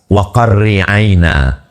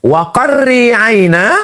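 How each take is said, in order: First: Said in the usual way. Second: Slow, higher chanted Quran verse; Quran recitation. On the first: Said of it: "Qarri aina artinya sejuk mata". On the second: Acted. (tilawah Quran yang lambat dan bernada)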